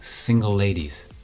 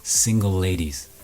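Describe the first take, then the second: The two takes are said the same way.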